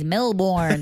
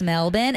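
First: Melbourne is pronounced with an American pronunciation. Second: Melbourne is pronounced with an Australian pronunciation. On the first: The speaker calls it wrong. "I fucking hate when Americans say Melbourne" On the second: The speaker calls it right. "it's Melbourne"

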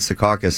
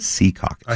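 First: The stress is on the middle syllable. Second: The stress is on the first syllable. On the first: The speaker calls it wrong. "I said Sea Caucus, and they actually correct me" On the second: The speaker calls it right. "Emphasis on the sea. Yeah. Yes. Not the middle part"

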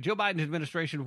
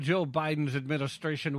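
First: It is spoken in the speaker's normal accent. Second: It is spoken in a put-on Russian accent.

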